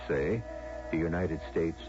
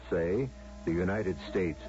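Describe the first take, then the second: No difference in how they are said.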